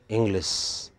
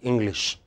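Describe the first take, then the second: First: The word ends with an 's' sound. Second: The word ends with a 'sh' sound. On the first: "We speak English" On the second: "we don't speak English"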